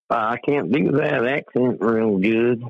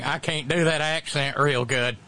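First: Slow Southern American drawl; Southern accent. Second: Slow imitated Southern drawl; Southern accent. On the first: Acted. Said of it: "you do a perfect Southern accent". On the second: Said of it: "when you do a perfect Southern accent".

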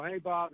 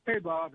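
First: Greeting with the stress shifted onto "Bob". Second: "Hey" stressed, falling tune on "Bob"; stress on the wrong syllable. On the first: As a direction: land the weight on "Bob", keep "Hey" light. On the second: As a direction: punch "Hey" and let "Bob" fall away. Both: Shown as a demonstration. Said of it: "I put the emphasis on the wrong syllable".

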